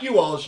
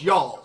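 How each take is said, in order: First: The first part is a full 'you' syllable. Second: The first part is reduced to a 'y' sound. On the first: The speaker calls it wrong. "Not you alls" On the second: The speaker calls it right.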